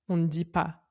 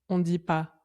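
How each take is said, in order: No difference in how they are said.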